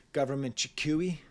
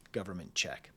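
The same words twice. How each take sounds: First: "Chikui" read as shee-KOO-ee, a puzzled misreading of the title. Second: "Government check" with "check" said plainly as chek; corrected reading. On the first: Reviewer stumbling on a song title, puzzled misread "Chikui". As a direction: sound out "Government Chikui" as two foreign syllables. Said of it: "In Canada, they spell things the British way". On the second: Reviewer realising the title's spelling, quiet corrected "check". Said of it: "they spell things the British way". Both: Shown as a demonstration.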